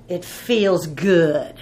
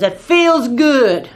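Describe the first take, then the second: First: Drawn out and relishing it, lightly voiced; a hint of a man enjoying his anger; slow relish. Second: Louder and very slow, savouring the anger; drawn-out, louder mock-angry relish. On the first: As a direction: savour each word of the grudge slowly. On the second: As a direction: lean into it like a man gloating over his grudge. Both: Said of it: "That guy was mad, boy".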